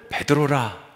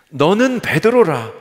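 First: Said in the usual way. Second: 너는 베드로라 said slowly, louder and higher, with 베드로라 falling; solemn proclamation. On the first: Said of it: "다시 한번 읽어드릴게요". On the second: Shown as a demonstration. Preacher repeating Jesus' naming of Peter, slow and loud. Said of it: "제가 다시 한번 읽어드릴게요".

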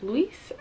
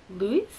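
First: "Lewis" as a soft question, like "LOO-iss"; hesitant, quiet "Lewis?" closing on a clear s; unsure pronunciation. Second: "Lewis" as a soft question, like "LOO-ee"; hesitant, quiet "Lewis?" ending on an ee sound; unsure pronunciation. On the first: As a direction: try "Lewis" with the final s sounded, rising. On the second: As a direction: try "Lewis" with a barely-there final s, rising. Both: Real, not acted. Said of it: "I apologize for pronouncing it wrong".

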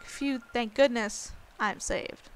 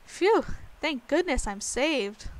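First: Relieved. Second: Said in the usual way. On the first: Shown as a demonstration. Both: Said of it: "I guess that'd be more like".

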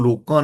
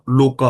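First: ਲੋਕਾਂ with a nasal final aa, the wrong reading; ਲੋਕਾਂ said with a nasal long aa at the end. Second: ਲੋਕਾ with a clean oral aa, no nasal; ਲੋਕਾ with a plain, non-nasal final aa; correct plain ending. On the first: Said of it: "ਇਹਨੂੰ ਲੋਕਾਂ ਨਹੀਂ ਪੜ੍ਹਨਾ". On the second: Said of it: "ਲੋਕਾ ਪੜ੍ਹਨਾ ਹੈ". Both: Shown as a demonstration.

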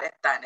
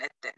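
First: "Etan" said with an -an ending, the wrong way; "Etan" as the misspoken island name; wrong pronunciation. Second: "Eten" with a clear -en ending, the right way; "Eten" said carefully as the correction; correct pronunciation. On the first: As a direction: say "Etan" as the mistaken version. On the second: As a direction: say "Eten" as the corrected island name. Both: Shown as a demonstration. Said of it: "Not Etan".

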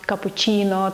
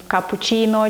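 First: Капучино with a harder "chy" in the third syllable; hard "chy" pronunciation. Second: Капучино with a soft "chee" in the third syllable; soft "chi" pronunciation. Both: Shown as a demonstration. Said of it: "як правильно".

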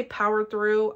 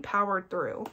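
First: Said in the usual way. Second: "powered through" said deliberately, with falling pitch; emphatic POWERED THROUGH. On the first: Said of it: "I mean powered through". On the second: Real, not acted. Clarifying for viewers how fast it went, emphatic "powered through". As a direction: land firmly on "powered through" to show it is meant literally. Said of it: "by I say powered through".

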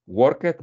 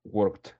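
First: Worked said as two syllables, work-ed, with a spoken e; Worked with an extra vowel, a little louder; wrong pronunciation. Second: Worked in one syllable ending in a t sound, workt; worked clipped to one beat with a final t; correct pronunciation. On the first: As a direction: sound out Worked as worket, the mistake to avoid. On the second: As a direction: say worked as workt, no extra vowel. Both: Shown as a demonstration. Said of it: "no, worked".

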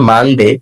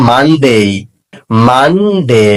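First: "মানডে" with short final "de"; mispronounced Monday. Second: "মানডে" drawn out as "MAN-dey"; correct Monday. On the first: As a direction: say "মানডে" the common way, "man-de". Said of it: "এটা মানডে হবে না". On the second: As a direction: model "মানডে" with a long gliding ending. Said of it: "এটা হবে". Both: Shown as a demonstration.

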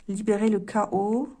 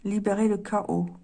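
First: Card words read out slowly with a rising end; slow deliberate reading. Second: Said in the usual way. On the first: Shown as a demonstration. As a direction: spell out the card slowly, leaving it hanging.

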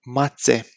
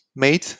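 First: Mațe with ț said as ts, MAH-tseh; Romanian mațe. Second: Mate said as plain MAH-teh, without the ts; wrong mate. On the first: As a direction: bite the ț in mațe like ts. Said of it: "This is ț". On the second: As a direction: say mate with a hard t, as the wrong version. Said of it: "This is not mate ... This is ț". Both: Shown as a demonstration.

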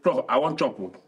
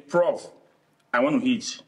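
First: Nigerian-voiced British English version. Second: Nigerian Pidgin. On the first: Showing how he'd tell Prof properly, British English. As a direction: put it in formal British English. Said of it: "the British English I might say". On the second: Showing how he'd tell Prof in Pidgin, Nigerian Pidgin. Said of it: "If I speak the Pidgin English now". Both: Shown as a demonstration.

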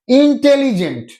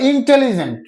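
First: ইন্টেলিজেন্ট measured out syllable by syllable, pitched higher; teacher breaking ইন্টেলিজেন্ট into its syllables; broken into syllables. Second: Said in the usual way. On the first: Shown as a demonstration. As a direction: say ইন্টেলিজেন্ট with each syllable distinct, in-tel-li-gent. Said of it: "এইটাকেও আমরা ভেঙে উচ্চারণ করতে হচ্ছে". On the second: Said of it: "ভেঙে উচ্চারণ করতে হচ্ছে".

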